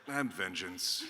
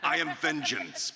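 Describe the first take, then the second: First: It is said in a relaxed, sleepy voice. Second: It is said in an intense, serious voice.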